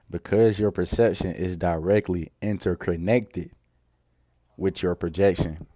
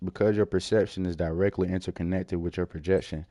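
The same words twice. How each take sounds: First: The sentence is said at a slower pace. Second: The sentence is said at a faster pace.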